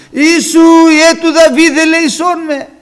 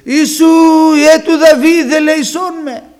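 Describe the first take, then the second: First: Full-force high, drawn-out cry for mercy; very loud, high-pitched plea over the hushing; louder shouting. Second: Loud, high, drawn-out cry for mercy; shouted plea to be heard; blind man's shout. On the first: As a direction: defiantly shout it at the top of your voice. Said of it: "Πιο δυνατά αυτός φώναζε". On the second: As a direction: call out over a crowd, pitched high. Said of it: "ο τυφλός, φώναζε". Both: Acted.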